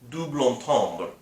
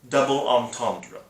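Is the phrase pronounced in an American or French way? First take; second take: French; American. First: The whole phrase is given a French pronunciation. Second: Double sounds like the ordinary English word double. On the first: "if you are from the continent, from Europe... which is a French term" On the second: "if you are American, you're most likely going to pronounce it"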